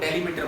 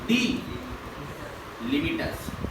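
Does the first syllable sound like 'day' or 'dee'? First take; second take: day; dee. First: The first syllable sounds like 'day'. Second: The first syllable sounds like 'dee'. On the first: The speaker calls it wrong. "लोग लोग डेलिमिटर बोलते हैं" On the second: The speaker calls it right. "पढ़ने का तरीका है डी लिमिटर्स"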